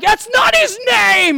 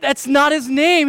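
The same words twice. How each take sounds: First: High, loud, drawn-out yell; exasperated mock shout. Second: Put-on slow, raised-pitch explaining to a child; gently but firmly correct a small child; patient dad, reasoning. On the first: Dad chasing his five-year-old around the house, hammed-up shouting. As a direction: shout it in comic outrage. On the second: Dad down at his son's level, patiently correcting. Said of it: "I get down his level".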